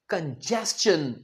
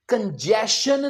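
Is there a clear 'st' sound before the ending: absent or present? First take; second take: present; absent. First: The middle is said with a clear 'st' sound. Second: The middle is said without the 'st' sound. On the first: The speaker calls it right. "ये है कंजेस्शन" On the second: The speaker calls it wrong. "ये कंजेशन नहीं है"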